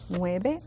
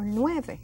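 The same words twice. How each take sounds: First: "Nueve" with a B sound, as NWEH-beh; variant pronunciation. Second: "nueve" with a clear V, as NWEH-veh; V-sound pronunciation. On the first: Teacher contrasting two accepted ways, "Nueve" with a B. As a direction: soften the V of "Nueve" into B. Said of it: "You may also hear people saying". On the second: Teacher contrasting two accepted ways, "nueve" with a V. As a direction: say "nueve" with teeth-on-lip V. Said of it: "I will pronounce every single letter". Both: Shown as a demonstration.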